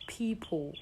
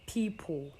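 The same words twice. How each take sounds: The two takes are said the same way.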